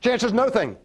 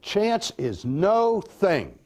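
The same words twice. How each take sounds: First: It is said faster again. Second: It is said slowly, words apart.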